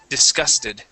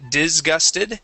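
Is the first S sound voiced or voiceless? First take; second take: voiceless; voiced. First: The first S is voiceless, a hissing S. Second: The first S is voiced, like a Z. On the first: The speaker calls it right. "that is a voiceless S" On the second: The speaker calls it wrong. "instead of saying"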